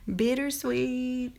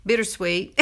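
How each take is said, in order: First: Bittersweet drawn out slowly, pitched up, every syllable spelled out; carefully enunciated. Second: Said in the usual way. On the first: Shown as a demonstration. Makeup presenter fixing her slip, slow careful over-enunciation. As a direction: stretch out Bittersweet slowly and higher, as if to a struggling listener. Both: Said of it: "I started to say buttersweet".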